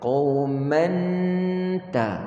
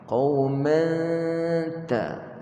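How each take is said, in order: First: The n is fully sounded at the gum ridge. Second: The nasal is hidden, tongue behind the teeth. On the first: The speaker calls it wrong. "dia letak hujung lidah dia pada makhraj nun. Tak betul ya?" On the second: The speaker calls it right. "Ta, belakang gigi"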